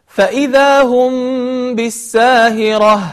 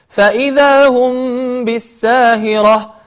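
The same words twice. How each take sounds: Both takes have the same delivery.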